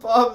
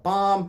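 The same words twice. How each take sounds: First: Louder and higher blurted yell amid laughter; a mock yell of one word; retold yell. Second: Louder and higher blurted yell; a mock yell of one word; retold yell. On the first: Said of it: "the kid yelled". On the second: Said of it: "the same kid yelled". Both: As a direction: shout it out like the kid did.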